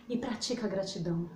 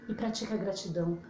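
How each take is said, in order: Both takes have the same delivery.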